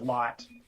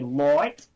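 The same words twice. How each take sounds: First: The vowel is plain, without the broad Australian sound. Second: The vowel is drawn out in a broad Australian way. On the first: "instead of light" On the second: "they think that we say light"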